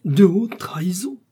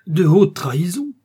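First: High, breathless whispered horror; shocked disbelieving whisper; aghast whisper. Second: Higher, louder horrified outcry; horrified exclamation of disbelief; terrified cry. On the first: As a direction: whisper it, stunned by the charge. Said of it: "épouvanté". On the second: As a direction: cry it out, appalled. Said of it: "s'écria Bonacieux, épouvanté". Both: A narrator's reading.

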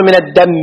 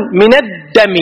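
First: "الدم" as ad-dammi, held m; mistaken doubled mim. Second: "الدم" as ad-dami, single m; doubled dal, light mim. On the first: Teacher showing what not to say, "الدم" with heavy m. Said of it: "ما تقول". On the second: Teacher giving the correct phrase, "الدم" with light m. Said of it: "الدال مشدد". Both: Shown as a demonstration.

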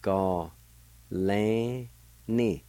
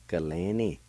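First: Ga and lan held long and set apart, ni short; syllable by syllable. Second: Said in the usual way. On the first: Shown as a demonstration. Teacher showing the word for "his or her ear", syllable by syllable. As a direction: sound out Ga, lan, ni with pauses. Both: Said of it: "it's pronounced like this".

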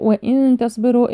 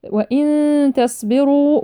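First: Said in the usual way. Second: Slow chanted وإن تصبروا with a hummed n; hidden nun. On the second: Shown as a demonstration. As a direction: hold a nasal hum from وإن into the ta of تصبروا. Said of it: "إخفاء النون الساكنة عند حرف التاء". (إخفاء نون وإن بغنة قبل تصبروا)

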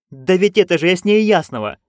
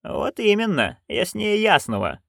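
First: Excited. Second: Dry agreement. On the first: Magrat insists, excited. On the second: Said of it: "кивнула матушка". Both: Acted.

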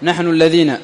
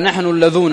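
First: الذين with a long ee before the final na; standard ya form. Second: اللذون with a long oo before the final na; dialect waw form. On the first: Teacher contrasting what the poet didn't say, with long ee. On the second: Teacher quoting the poet's dialect form, with long oo. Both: Shown as a demonstration. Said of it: "ولم يقل".

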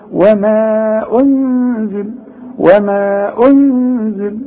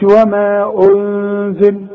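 First: انزل with lips pushed out then pulled back quickly; rounded ghunna. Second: وما انزل with the ghunna too long; wrong reading. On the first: Teacher shows the lip-rounded ghunna on وما انزل. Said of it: "همد شفايفي على هيئة قبلة وارجعها فورا". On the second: Teacher demonstrates the wrong reading of وما انزل. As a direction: misread وما انزل on purpose. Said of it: "غلط". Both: Shown as a demonstration.

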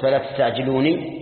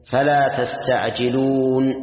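First: تستعجلوني ending in an audible "nee"; وصل بكسر النون. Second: تستعجلون stopped on a silent final n, long "uuun"; slow recited تستعجلون, drawn out and closed on bare n; وقف على النون. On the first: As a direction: say تستعجلوني with the final n given an i vowel. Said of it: "لو أنك وصلت". (نطق تستعجلوني بنون مكسورة كما في الوصل) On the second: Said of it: "وجب الكسر". (تلاوة تستعجلون ببطء مع الوقف على نون ساكنة) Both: Shown as a demonstration.

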